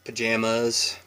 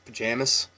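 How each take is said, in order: First: The final syllable is said fully and longer. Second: The final syllable is quick and clipped. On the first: This is how locals do not say it. "not pajamas" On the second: This is how locals say it. "the mas at the end is quite quick, or it's like chopped"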